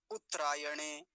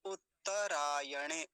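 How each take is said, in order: First: उत्तरायणे squeezed to "uttrayane"; quick उत्तरायणे with tr run together; wrong form. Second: उत्तरायणे slow as "ut-ta-rayane"; stretched उत्तरायणे, every vowel full; correct form. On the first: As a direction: drop the vowel after tt in उत्तरायणे. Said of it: "ऐसा नहीं". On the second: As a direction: give the second t of उत्तरायणे its a. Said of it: "कैसे होगा फिर इसका उच्चारण". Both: Shown as a demonstration.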